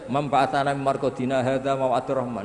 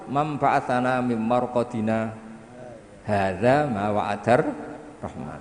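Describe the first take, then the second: First: It runs straight through without a pause. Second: There is a short pause after marqadina.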